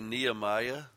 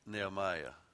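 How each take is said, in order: First: The first vowel is said long. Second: The first vowel is said short. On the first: The speaker calls it wrong. "We say Nehemiah" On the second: The speaker calls it right. "it actually should be pronounced Nehemiah"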